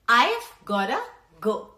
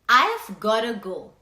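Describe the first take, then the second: First: The words are contracted to I've gotta. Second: The words are contracted to I've gotta.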